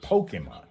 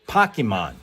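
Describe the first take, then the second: First: The first syllable does not sound like 'pocket'. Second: The first syllable sounds like the start of 'pocket'. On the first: The speaker calls it wrong. "rather than" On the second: The speaker calls it right. "If if if if the pole part is short for pocket, then it should be Pokemon"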